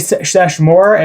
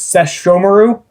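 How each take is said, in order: First: The name is short and ends with 'more'. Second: The name is longer and ends with 'maru'. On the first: The speaker calls it wrong. "I've been saying I say Seshmore" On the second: The speaker calls it right. "if I'm pronouncing that correctly now"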